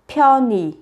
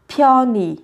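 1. Nguyên âm cuối phát âm giống i. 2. Nguyên âm cuối phát âm giống i.

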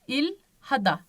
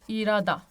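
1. H sesi açıkça telaffuz ediliyor. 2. H sesi düşüyor. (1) "İlhada değil de irada" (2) "İrada böyle bunun gibi okunuyor"

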